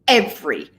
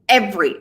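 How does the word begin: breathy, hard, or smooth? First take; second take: hard; hard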